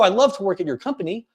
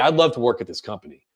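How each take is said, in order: First: It sounds insecure, rising at the end. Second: It sounds confident, falling at the end.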